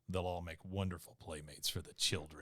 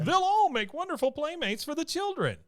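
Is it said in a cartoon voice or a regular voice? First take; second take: regular voice; cartoon voice. First: It is said in a regular voice. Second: It is said in a cartoon voice.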